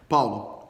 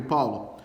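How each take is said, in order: First: Lower, drawn-out divine call, lightly voiced; a hint of God calling a second time. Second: A hint of a deep, calm divine voice calling; lightly voiced God calling a name from above. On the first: God calls Paulo again, lower, lightly voiced. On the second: God calls Paulo by name, lightly voiced divine calm. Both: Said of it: "ouve uma voz assim dizendo".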